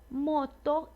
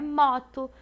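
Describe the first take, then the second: First: The O vowel is closed. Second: The O vowel is open. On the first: The speaker calls it right. "o som é fechado" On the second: The speaker calls it wrong. "não é moto"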